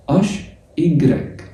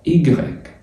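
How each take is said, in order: First: أش and إجريك drawn out slowly and clearly; slow letter names. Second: إجريك said as French igrek, stress on the last syllable; letter name. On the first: Teacher repeating French letters slowly for students: أش إجريك drawn out. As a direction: stretch out أش and إجريك. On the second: Teacher naming the French letter for students: إجريك said the French way. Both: Shown as a demonstration. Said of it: "تبقى زائد أش".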